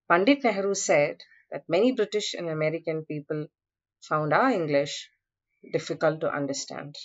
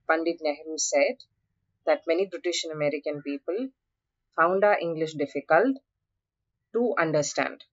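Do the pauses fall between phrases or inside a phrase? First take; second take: between phrases; inside phrase. First: The pauses fall between the natural phrases. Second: A pause breaks up a phrase in the middle. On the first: The speaker calls it right. "The right phrasal pause is when you say" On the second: The speaker calls it wrong. "You don't say, ... That's wrong"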